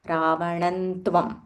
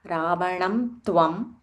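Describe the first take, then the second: First: The nasal before tvam is an n sound. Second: The nasal before tvam is an m sound. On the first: "we can say ravanantvam" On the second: "it is okay to say ravanam tvam"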